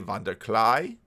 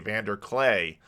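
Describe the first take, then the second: First: It is said with a Dutch accent. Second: It is said with an American accent.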